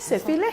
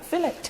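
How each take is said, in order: First: The word is pronounced the French way. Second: The word is pronounced the English way. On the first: "En français" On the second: "mais en anglais"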